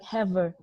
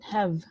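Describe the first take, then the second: First: An extra vowel sound follows the final v. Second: The word ends cleanly on the v sound. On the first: The speaker calls it wrong. "most of you guys pronounce it like haver. So don't uh, pronounce it like that" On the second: The speaker calls it right. "but have"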